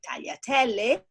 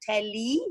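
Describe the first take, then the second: First: The final vowel is said the Italian way. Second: The final vowel is said the English-speaker way. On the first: The speaker calls it right. "we pronounce E" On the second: The speaker calls it wrong. "that you say tagliatelli"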